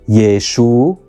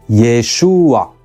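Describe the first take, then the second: First: The final guttural consonant is left out entirely. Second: A short extra vowel comes before the final sound. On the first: "with weakening and not pronouncing the final guttural" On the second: "with a helping vowel to help pronounce the ah"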